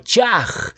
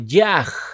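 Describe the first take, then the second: First: The word begins with a ch sound. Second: The word begins with a y sound. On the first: "la forma Chaj con fonética Che" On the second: "otros lo pronuncian como Yaj"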